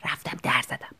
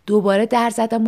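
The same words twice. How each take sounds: First: Soft unvoiced whisper. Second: Said in the usual way. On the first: Shown as a demonstration. Narrator knocking at night, whispering. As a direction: breathe the words, no voice. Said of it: "با نرمهٔ نوک انگشتم".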